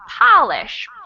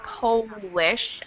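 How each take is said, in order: First: The first vowel is an open ah sound. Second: The first vowel is a rounded oh sound. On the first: It means to make something shine. "the second one is more of an open ah sound" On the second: It means from Poland. "The first one is an O sound"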